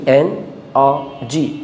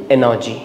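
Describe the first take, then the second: First: "এন আর জি" in three parts with gaps between; broken into syllables. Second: Said in the usual way. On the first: Shown as a demonstration. Teacher recapping the three syllables, broken into syllables. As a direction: separate "এন", "আর" and "জি" clearly. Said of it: "ভেঙে ভেঙে". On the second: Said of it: "একসাথে বললে".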